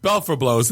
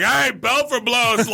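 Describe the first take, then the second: First: Said in the usual way. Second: High, drawn-out mock page; imitated calling out. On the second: Donut shop worker unwittingly pages the prank name, high imitated call-out. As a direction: call it across the shop, stretched out.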